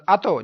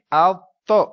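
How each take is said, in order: First: اتو said quickly with no hold on the t; quick, unheld. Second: اتو with a pressed, held t, then a loud release; held doubled letter. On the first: Teacher shows students what not to do, hurried اتو. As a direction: rush through اتو as one short word. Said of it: "جلدی سے نہیں". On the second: Teacher corrects the hurried reading, firmly held اتو. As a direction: hold the middle of اتو briefly, louder. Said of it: "تھوڑا جما کے". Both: Shown as a demonstration.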